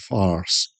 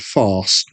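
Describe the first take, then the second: First: The R sound after the vowel is pronounced. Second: The R sound after the vowel is dropped. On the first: "an American will go farce, and you get that R" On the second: "I don't really pronounce the R in there"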